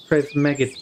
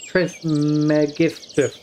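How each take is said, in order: First: Said in the usual way. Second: Trismegistus said slowly, syllable by syllable; careful pronunciation. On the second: Shown as a demonstration.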